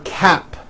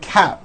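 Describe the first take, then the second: First: The final P sound is clearly released. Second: The final P sound is dropped. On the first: The speaker calls it right. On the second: The speaker calls it wrong.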